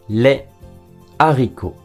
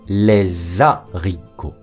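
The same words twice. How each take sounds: First: The two words are kept separate, no linking sound. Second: The two words are linked with a z sound. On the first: The speaker calls it right. "Devant un H aspiré" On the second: The speaker calls it wrong. "Et non"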